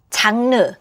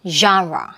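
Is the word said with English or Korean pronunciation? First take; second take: Korean; English. First: It is said with Korean loanword pronunciation. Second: It is said with native English pronunciation. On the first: "장르, genre. 완전 다르죠" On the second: "완전 다르죠"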